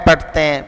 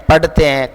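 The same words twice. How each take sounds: No difference in how they are said.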